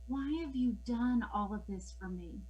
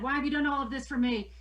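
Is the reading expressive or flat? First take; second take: expressive; flat. First: It is read with lively, expressive intonation. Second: It is read in a flat, monotone way. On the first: The speaker calls it right. "I had the right pauses, I had the right intonation" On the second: The speaker calls it wrong. "I don't want kids reading this way"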